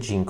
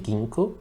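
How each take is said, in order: First: The word is said with Portuguese pronunciation. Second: The word is said with English pronunciation. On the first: "In Portuguese we say ginkgo" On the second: "I'm not sure if in English you say ginkgo"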